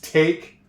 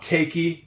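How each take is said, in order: First: The word ends cleanly on the k sound. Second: An extra 'ee' vowel is sounded after the k. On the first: The speaker calls it right. "It's take" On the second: The speaker calls it wrong. "That is not takey"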